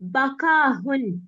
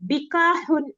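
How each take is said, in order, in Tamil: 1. முதல் உயிர் ஒலி 'a' ஒலி ஆகும். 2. முதல் உயிர் ஒலி 'i' ஒலி ஆகும். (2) "பிகாஹுன் அல்ல"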